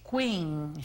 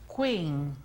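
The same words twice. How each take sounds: The two takes are said the same way.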